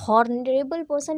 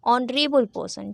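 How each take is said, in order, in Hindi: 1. शब्द की शुरुआत में h की आवाज़ सुनाई देती है। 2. शब्द स्वर से शुरू होता है, इसमें h नहीं है। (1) "ये हॉनरेबल पर्सन नहीं होता ना" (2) "एच इज साइलेंट"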